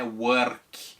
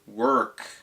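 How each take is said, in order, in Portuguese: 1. O R não é o R enrolado do inglês. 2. O R é o R enrolado do inglês. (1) "não é work" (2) "é work"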